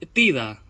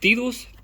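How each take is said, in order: First: The name ends with a vowel sound. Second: The name ends with an s sound.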